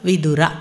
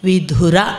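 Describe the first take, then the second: First: The middle consonant is plain, without a breath. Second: The middle consonant is aspirated, with a breath. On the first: It names the wise man who returned from pilgrimage. The speaker calls it right. "ವಿದುರ ಅನ್ನಬೇಕು" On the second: It means a man who lost his wife. The speaker calls it wrong. "ವಿಧುರ ಅನ್ನಬಾರ್ದು ... ಮಹಾಪ್ರಾಣ"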